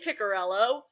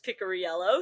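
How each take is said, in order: First: The name has no 'ee' sound before the ending. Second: The name has an 'ee' sound before the ending. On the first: The speaker calls it wrong. "half of the broadcasts say" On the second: The speaker calls it right. "he informed us it's"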